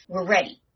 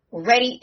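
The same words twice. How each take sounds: First: Said in the usual way. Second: Higher and louder, pumped; rally the crew before the showdown; excited battle-ready call; hyped. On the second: Shown as a demonstration. Hyping the showdown.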